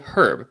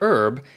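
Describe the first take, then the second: First: The word starts with an h sound. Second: The word starts without an h sound. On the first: This is the British way of saying it. "in the U K they say herb" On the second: This is the American way of saying it. "in the U S we say herb"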